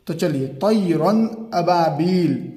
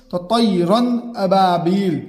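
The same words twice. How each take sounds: First: Slow recitation of तैरन अबाबील with the नून of तैरन read clearly, no nasal hold; drawn-out Quranic reading of तैरन अबाबील, clear नून; slow, clear reading of तैरन अबाबील, no ghunna; tajweed recitation. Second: Slow recitation of तैरन अबाबील with a clean, unnasalised नून; izhar, no ghunna. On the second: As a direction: recite तैरन अबाबील slowly, clear नून and no nasal hold. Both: Shown as a demonstration. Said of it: "गुन्ना नहीं करेंगे क्योंकि इजहार है".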